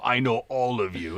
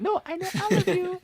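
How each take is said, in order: First: Said in the usual way. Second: "I know all of you" pitched very high and eerie; creepy menacing reading. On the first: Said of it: "You get these texts, and you're like". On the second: Shown as a demonstration. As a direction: make it sound like a threat. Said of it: "And it's like".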